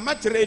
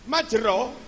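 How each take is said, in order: First: The final vowel is tilted toward an e sound. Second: The final vowel is a plain open a/o sound.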